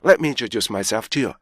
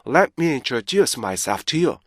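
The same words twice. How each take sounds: First: The sentence is spoken very fast, in rapid fire. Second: The sentence is spoken at a moderate pace. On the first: "굉장히 빠르고 속사포천히 여러분들이 발음하셔도요" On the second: "이렇게 되고요"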